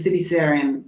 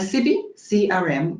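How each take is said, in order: First: The phrase is said very quickly. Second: The phrase is said slowly and clearly.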